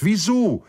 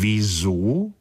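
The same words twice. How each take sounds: First: High, loud cry of disbelief; astonished cry. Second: Puzzled repeat. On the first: Sita and Sri Daman cry out together, astonished. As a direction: burst out in shocked surprise. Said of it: "riefen Sita und Sri Daman wie aus einem Munde". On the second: The slender friend echoes the question, puzzled. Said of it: "wiederholte der feingliedrige Freund". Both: A narrator's reading.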